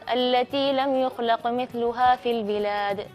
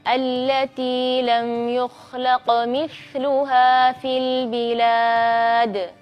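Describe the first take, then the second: First: It is recited at a quick pace. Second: It is recited slowly and deliberately. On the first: The letter's qualities are not very clear. "kalau kita bacanya agak cepat" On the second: Each letter's qualities are made clear. "tempo bacaan kita pelan-pelan"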